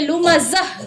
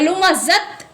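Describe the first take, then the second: First: The word ends with an h sound. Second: The word ends with a t sound. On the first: The speaker calls it right. "इस पर वक्फ करेंगे लुमाजह" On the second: The speaker calls it wrong. "ऐसे वक्फ नहीं करेंगे"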